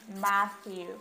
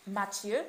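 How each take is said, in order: First: "Matthew" drawn out as MATH-yoo; "Matthew" in American English, tongue on the TH; English pronunciation. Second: Said in the usual way. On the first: Shown as a demonstration. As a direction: model "Matthew" slowly with an English TH. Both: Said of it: "ça va se lire Matthew".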